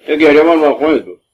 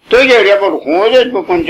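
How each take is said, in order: First: Tossed off quickly, almost muttered; quick aside. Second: گریه raised high and stressed; preaching stress. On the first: (سریع و آهسته) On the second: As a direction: stress the word گریه, pitched up. (تأکید روی گریه) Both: Real, not acted. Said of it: "repeats the line three times".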